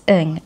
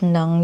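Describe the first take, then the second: First: The name is said as 'ing'. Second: The name is said as 'nang'. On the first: This is how it is said in Singapore and Malaysia. The speaker calls it right. "They pronounce it as Ng, I N G" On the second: This is how Filipinos usually say it. The speaker calls it wrong. "bakit Nang yung pronunciation natin"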